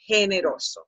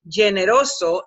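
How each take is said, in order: First: The G does not sound like English general. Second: The G sounds like the English G in general. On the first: The speaker calls it right. "You have to say generoso" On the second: The speaker calls it wrong. "pronounce it in English filters you, taking you to general or generous"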